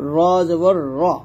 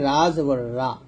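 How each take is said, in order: First: The r is pronounced heavy and full. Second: The r is pronounced thin and light. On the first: The speaker calls it right. "র হরফটাকে মোটা করে পড়তে হয়" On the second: The speaker calls it wrong. "রা বলা যাবে না"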